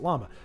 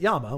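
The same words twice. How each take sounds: First: It begins with an l sound. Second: It begins with a y sound. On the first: This is how English speakers say it. "We pronounce it llama" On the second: This is how Spanish speakers say it. "We just don't pronounce it llama"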